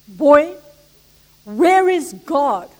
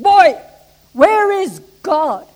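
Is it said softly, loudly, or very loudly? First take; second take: softly; very loudly. First: It is said at normal volume. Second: It is boomed very loudly.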